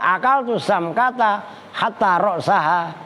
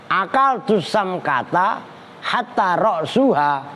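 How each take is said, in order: First: The last word has an a vowel after s. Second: The last word has a u vowel after s. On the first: The word hatta acts as a conjunction. "roksaha nasob" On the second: The last word starts a new clause with an implied predicate. "Boleh juga dibaca rofa"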